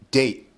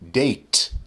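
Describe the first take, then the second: First: The final T is unreleased, stopping the vowel. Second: The final T is fully released. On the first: The speaker calls it right. "I say date. Date. I form the T with my mouth, but I don't say T" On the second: The speaker calls it wrong. "I don't actually say date"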